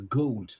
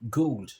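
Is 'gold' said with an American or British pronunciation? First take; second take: British; British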